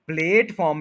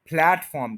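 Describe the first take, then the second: First: प्लेटफॉर्म as PLAYT-form; long e vowel. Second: प्लेटफॉर्म as PLAT-form; short open vowel. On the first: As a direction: stretch the first vowel of प्लेटफॉर्म like plate. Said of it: "native लोग इसको प्लेटफॉर्म नहीं". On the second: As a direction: shorten the first vowel of प्लेटफॉर्म to rhyme with flat. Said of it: "कहते बल्कि". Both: Shown as a demonstration.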